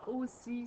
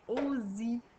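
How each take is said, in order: First: The middle consonant is a hissing S sound. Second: The middle consonant is a buzzing Z sound. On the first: This is how the word is really said. "ça ferait pas aussi" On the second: This is how it would sound with a single S. "il devient comme un Z"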